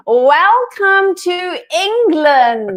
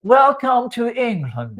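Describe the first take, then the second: First: "Welcome to England" slow and high in a hammed-up English accent; teaching English pronunciation; English accent demo. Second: "Welcome to England" slow and high, aping an English accent; copying an English accent. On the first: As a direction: give it a showy English accent. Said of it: "can I teach you English now". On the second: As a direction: mimic a posh English welcome. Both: Shown as a demonstration.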